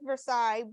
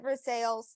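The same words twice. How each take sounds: First: The name is said the French way. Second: The name is said the local way. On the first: This is the name the spelling comes from. "which is spelled like Versailles" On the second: This is how people there say the name. "they pronounce it Versailles"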